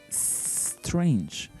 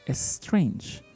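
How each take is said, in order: First: The word starts directly with the S sound. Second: A short vowel is added before the S. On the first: The speaker calls it right. "the correct sound should be strange" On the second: The speaker calls it wrong. "we usually say strange"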